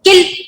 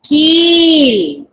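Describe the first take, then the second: First: The vowel is said short. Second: The vowel is said long. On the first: The speaker calls it wrong. "अगर आप बोलोगे किल तो wrong हो जाएगा" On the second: The speaker calls it right. "यहां पर ई की मात्रा है, आपको पढ़ना है कील"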